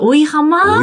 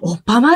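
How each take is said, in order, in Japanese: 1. 'oi'と、普通の'h'の音で言います。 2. 'pp'を重ねた音で言います。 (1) "最初、おいはまみたいな。" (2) "おっぱまって読むんですか？"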